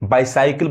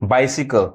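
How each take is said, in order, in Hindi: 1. दूसरे अक्षर में 'eye' स्वर है। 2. दूसरे अक्षर में छोटा 'ee' स्वर है। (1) "बाइसाइकिल बोल लोग पढ़ते हैं, गलत" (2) "यहाँ जो वाई है वो ई साउंड देगा"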